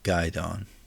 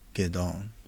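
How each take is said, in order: First: The first syllable sounds like 'guy'. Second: The first syllable sounds like 'gay'. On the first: The speaker calls it wrong. "Not Guidon. I'm an idiot" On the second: The speaker calls it right. "I think it's it'd be Gaydon"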